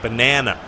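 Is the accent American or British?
American. It is said with an American accent. "the way Americans say it, they say banana"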